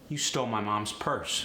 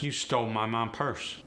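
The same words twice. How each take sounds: First: An s sound follows 'mom'. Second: No s sound follows 'mom'.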